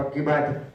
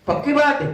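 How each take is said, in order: First: पक्की बात है answered low and softer; confirming. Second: पक्की बात है asked high, as a check; questioning. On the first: His own confirming answer to officer. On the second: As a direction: press for confirmation on पक्की बात है with raised pitch. Officer's question, answered in same words. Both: Retold or imitated.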